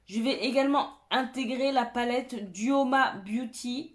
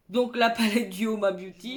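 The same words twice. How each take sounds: First: Half robot voice, even and mechanical. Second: Said in the usual way. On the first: Real, not acted. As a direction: say it like a robot by accident. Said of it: "On dirait que je parle comme un robot". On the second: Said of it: "Pourquoi je parle comme ça?".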